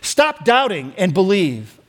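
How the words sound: It is said angrily.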